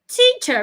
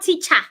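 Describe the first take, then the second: First: The final vowel is a weak closed 'uh'. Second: The final vowel is full and open. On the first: The speaker calls it right. "remember it's a closed sound" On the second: The speaker calls it wrong. "not teacher"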